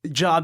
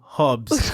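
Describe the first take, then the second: First: The name begins with a J sound. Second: The name begins with an H sound. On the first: This is the form used for Americans. The speaker calls it wrong. "Jobs is just for the Americans" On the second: This is the real form of the name. The speaker calls it right. "silent J, so it should be Hobbs"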